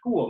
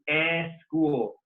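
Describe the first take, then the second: First: The word starts directly with the s. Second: A vowel sound comes before the s. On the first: The speaker calls it right. "it should say school" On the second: The speaker calls it wrong. "when students say eh school"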